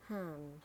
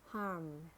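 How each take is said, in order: First: "harm" with a British silent R; British "harm", said hahm; British accent. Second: "harm" with a sounded American R; American "harm", curl the R before m; American accent. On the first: Teacher models harm for learners, British accent. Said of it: "in British English". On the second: Teacher models harm for learners, American accent. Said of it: "R in American English". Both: Shown as a demonstration.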